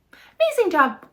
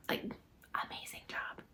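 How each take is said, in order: First: Excited praise. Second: Unvoiced whisper of praise. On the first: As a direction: cheer it out proudly. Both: Real, not acted. Whispered then loud repeat.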